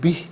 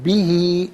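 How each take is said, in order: First: The word ends on the consonant h. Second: The word ends with a final i vowel. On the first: The reciter stops at this word. "वक्फ करेंगे तो बिह पढ़ा जाएगा" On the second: The reading continues without stopping. "इसे हम पढ़ेंगे बिही"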